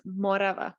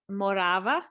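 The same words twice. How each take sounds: First: The stress is on the first syllable. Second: The stress is on the second syllable. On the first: This is the newer way of saying it. "switch to the first syllable" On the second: This is the older way of saying it. "that was the the old way of pronouncing things"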